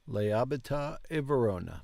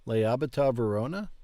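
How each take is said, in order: First: "Lei abita a Verona." with a falling statement tune at the end. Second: "Lei abita a Verona?" with a rising question tune at the end. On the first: Learner repeating the app sentence as a falling statement. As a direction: state it flatly, dropping on "Verona". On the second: Learner practising the app sentence as a rising question. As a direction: ask it, lifting on "Verona". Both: Shown as a demonstration.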